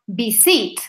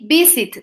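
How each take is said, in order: First: The stress is on the second syllable. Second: The stress is on the first syllable. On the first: The speaker calls it wrong. "not visit" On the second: The speaker calls it right. "I say visit, ... I am making the stress on the first syllable"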